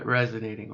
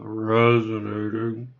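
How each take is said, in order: First: Said in the usual way. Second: Resonating drawn out slow in a changed, resonant timbre; resonant demo. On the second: Shown as a demonstration. Repeating the word to viewers as a slow resonance demo. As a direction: stretch resonating slowly and let it ring.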